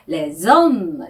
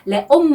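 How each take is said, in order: First: The words are linked with a z sound. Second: The words are said without a linking z sound. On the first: The speaker calls it right. "레좀 이렇게 연음을 해주셔야 됩니다" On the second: The speaker calls it wrong. "레옴 하시면 안 되고요"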